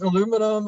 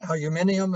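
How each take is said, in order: First: It is said in an American pronunciation. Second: It is said in a British pronunciation. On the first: "I've used the American one" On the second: "if you like that pronunciation"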